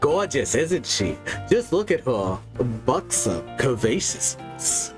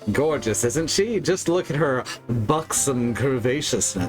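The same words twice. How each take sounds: First: It is said in a put-on cartoon voice. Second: It is said in the speaker's ordinary voice.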